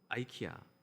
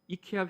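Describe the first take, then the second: First: The name starts with an eye sound: eye-kee-ah. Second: The name starts with an ee sound: ee-keh-ah. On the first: This is how it is said abroad. "외국에서는 아이키아라고 발음을 합니다" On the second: This is how it is usually said in Korea. "이케아라고 보통 우리나라에서는 발음하는데"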